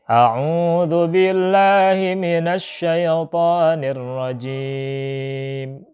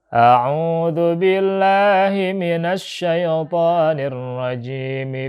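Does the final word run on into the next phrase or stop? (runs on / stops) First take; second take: stops; runs on. First: The last word ends in a consonant, then stops. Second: The last word ends on a vowel and runs on. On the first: The phrase is recited separately from what follows. "kita berhenti di situ" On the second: The phrase is joined to what follows. "jadi lafaz ar-rajim di situ harus dikasrohkan"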